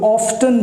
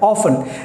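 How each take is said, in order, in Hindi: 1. यह शब्द t की आवाज़ के साथ बोला जाता है। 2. यह शब्द बिना t की आवाज़ के बोला जाता है। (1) "कुछ लोग मिस्टेक से इस शब्द को ऑफ्टन भी बोलते हैं" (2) "दिस इज ऑफन"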